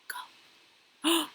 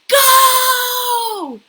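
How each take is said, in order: First: It is said quietly. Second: It is said very loudly.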